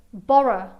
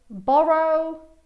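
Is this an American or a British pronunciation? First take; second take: British; American. First: The final vowel is a weak schwa sound. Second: The final vowel is a full o sound. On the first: "In British English ... con l'ultimo suono come un suono schwa" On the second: "nell'American English ... Qui il suono è O"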